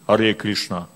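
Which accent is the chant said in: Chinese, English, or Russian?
Russian. It is said with a rough Russian accent. "Или русский «Харе Кришна». Ну, грубо очень"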